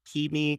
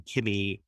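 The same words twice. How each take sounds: First: "Kimi" said KEE-mee, like Siri; "Kimi", pitched up and rhyming with Siri; long-ee pronunciation. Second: "Kimmy" with a short i, rhyming with Jimmy; short-i pronunciation. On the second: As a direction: say "Kimmy" with a short first vowel. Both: Shown as a demonstration. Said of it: "'cause it's like Siri".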